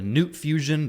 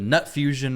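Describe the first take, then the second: First: The first word sounds like 'newt'. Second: The first word sounds like 'nut'. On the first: "whatever way you want to say it" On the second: "most people are going with nut"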